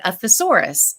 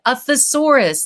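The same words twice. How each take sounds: First: Said in the usual way. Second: Mild mock yell of "A thesaurus" to a child in another room; yelling back. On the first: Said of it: "And I said". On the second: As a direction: call "A thesaurus" across the house. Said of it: "And I yelled back".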